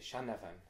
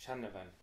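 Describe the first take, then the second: No difference in how they are said.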